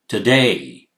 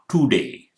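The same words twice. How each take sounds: First: The first vowel is a short, reduced schwa. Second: The first vowel is a full oo vowel. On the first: The speaker calls it right. "It's t" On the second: The speaker calls it wrong. "It's not today. It's not two"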